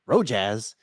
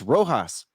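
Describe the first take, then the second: First: The middle consonant is an English J sound. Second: The middle consonant is an H sound. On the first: The speaker calls it wrong. "The J, you don't say J" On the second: The speaker calls it right. "It's like an H sound"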